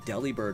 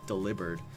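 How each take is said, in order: First: The name begins with a short 'deli' sound. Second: The name begins with the full word 'deliver'. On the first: The speaker calls it wrong. "pronouncing um, Delibird wrong this whole time" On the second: The speaker calls it right. "Because it's deliver and bird"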